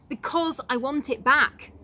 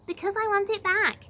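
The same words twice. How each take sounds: First: It is said in a normal speaking voice. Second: It is said in a whiny baby voice.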